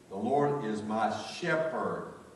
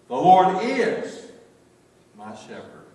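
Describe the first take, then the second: First: The stress is on "shepherd". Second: The stress is on "is".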